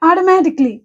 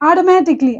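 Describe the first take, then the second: The two takes are said the same way.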